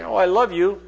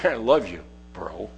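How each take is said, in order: First: Said in the usual way. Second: Tossed-off I love you bro, dropping away to nothing; offhand mumble. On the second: Shown as a demonstration. Preacher showing a careless, empty I love you. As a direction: throw it away casually, trailing off. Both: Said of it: "Or you could say it like this".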